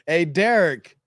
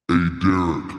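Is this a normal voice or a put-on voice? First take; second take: normal; put-on. First: It is said in the speaker's normal voice. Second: It is said in a changed, put-on voice.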